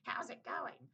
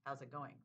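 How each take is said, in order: First: The greeting sounds loaded and suspicious. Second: The greeting sounds casual and neutral. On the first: It seems to hide a hurtful meaning. "But I'm hearing" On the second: It is an innocent greeting. "They were just saying"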